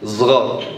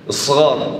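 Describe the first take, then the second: First: The word begins with a z sound. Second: The word begins with an s sound.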